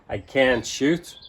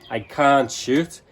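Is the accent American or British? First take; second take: American; British. First: It is said in an American accent. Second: It is said in a British accent. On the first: "In American, it would be more like" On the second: "in British English, we say I can't"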